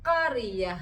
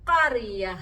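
Both takes have the same delivery.

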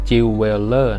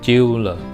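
First: Every syllable of the word is pronounced in full. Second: The word is pronounced in a shortened form. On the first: The speaker calls it wrong. "อันนี้อย่าอ่านว่า" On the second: The speaker calls it right. "ไม่ใช่อ่านเต็มคำอ่านว่า"

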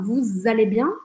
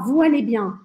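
First: Vous is linked to allez with a z sound. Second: Vous and allez are said separately, no z sound. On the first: The speaker calls it right. "Todo mundo vai falar vous allez bien" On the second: The speaker calls it wrong. "Você não vai ouvir ninguém falar vous allez bien"

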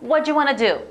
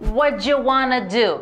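First: It is said quickly. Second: It is said at normal speed.

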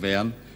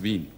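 First: It is said with a Viennese dialect vowel. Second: It is said with the standard German vowel. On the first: This is how locals say it in everyday speech. "Man sagt zwar in Wern zu Wern" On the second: This is how the song wants it sung. "aber hier in dem Lied heißt es Wien"

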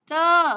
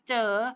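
First: The word is said with a falling tone. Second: The word is said with a rising tone. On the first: "ไม่โทร" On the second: "ไม่จัตวา"

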